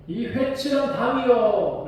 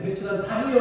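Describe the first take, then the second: First: High, slow hurled insult; Paul yelling insult. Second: Said in the usual way. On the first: Retold or imitated. Paul shouting an insult at the high priest. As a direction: hurl it at him, drawn out. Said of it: "더 크게 소리를 질러요". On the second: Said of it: "라고 말하는 게".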